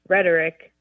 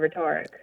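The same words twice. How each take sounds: First: It is pronounced in the usual spoken way. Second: It is pronounced the way it is spelled. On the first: The speaker calls it right. "it's rhetoric instead of" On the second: The speaker calls it wrong. "instead of rhetoric"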